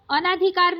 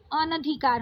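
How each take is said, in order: First: अनाधिकार with a long naa; wrong long second vowel. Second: अनधिकार with a short na; correct short second vowel. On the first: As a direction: say अनाधिकार as "a-naa-dhi-kaar". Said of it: "नहीं होता है". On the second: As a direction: say अनधिकार as "a-nuh-dhi-kaar". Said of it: "अनधिकार होता है". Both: Shown as a demonstration.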